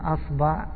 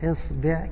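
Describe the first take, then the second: First: Both vowels are a. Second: Both vowels are i. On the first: "فتحة فتحة" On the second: "كسرة كسرة"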